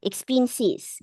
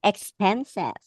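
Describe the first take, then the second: First: Expenses drawn slowly with i vowels; Australian expenses. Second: Said in the usual way. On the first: Shown as a demonstration. Teacher imitating Australians, expenses as slow "ex-pin-sis". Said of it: "Ganun yan sila sa Australia". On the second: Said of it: "So, paano sinasabi?".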